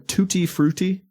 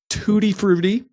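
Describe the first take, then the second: First: The name is said with careful, precise enunciation. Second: The name is said casually, without careful enunciation.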